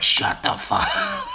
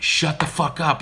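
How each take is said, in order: First: Very high squawky parrot, cracking up; parrot echo. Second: Higher, louder exasperated shout; aunt yelling at the cussing parrot; fed-up yell. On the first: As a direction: squawk it right back while laughing. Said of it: "And he'd be like". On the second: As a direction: snap back at the bird, sick of it. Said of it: "my Aunt Barbara would be like". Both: Retold or imitated.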